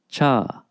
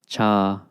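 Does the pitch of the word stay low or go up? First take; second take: goes up; stays low. First: The pitch goes up on the word. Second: The pitch stays low on the word. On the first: It is the question word how. "they tend to be accented, and those will kind of go up in intonation" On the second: It means always or all the way. "particularly important for the cha to stay down"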